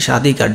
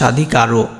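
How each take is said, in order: First: The word ends on the consonant r. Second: The word ends with an added final o vowel. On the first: The speaker calls it right. "এটা উচ্চারণ কি" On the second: The speaker calls it wrong. "তা স্বাধিকারও তো কোনো উচ্চারণ না"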